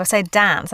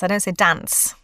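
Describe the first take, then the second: First: "dance" with the short-a sound held long, Australian style; long flat a. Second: "dance" with a short, northern English a. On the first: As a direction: stretch the a in "dance", Aussie style. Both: Shown as a demonstration. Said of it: "the length of the vowel".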